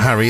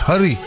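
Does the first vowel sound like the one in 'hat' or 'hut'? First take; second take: hat; hut. First: The first vowel sounds like the one in 'hat'. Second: The first vowel sounds like the one in 'hut'. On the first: The speaker calls it wrong. "it's not Harry" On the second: The speaker calls it right. "it's Hurry"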